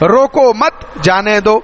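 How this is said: The pause comes after the word mat. Don't stop him, let him go. "روکو مت یا وقف کیا جانے دو"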